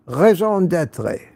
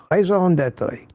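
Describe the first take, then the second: First: Raison d'être said with a French nasal on raison; trying the French raison d'être; French phrase attempt. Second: Raison d'être repeated slowly with French vowels; careful French. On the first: Livestream host tries French for a viewer, careful pronunciation. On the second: Host repeats the French phrase for viewer, careful pronunciation. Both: Shown as a demonstration. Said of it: "I think it's pronounced".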